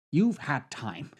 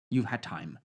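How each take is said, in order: First: YOU'VE HAD TIME slow, each word weighted; "You've had time" said slowly and deliberately; drawn-out emphasis. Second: Said in the usual way. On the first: Real, not acted. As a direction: stretch out "You've had time" to drive it home. Repeats line with more emphasis.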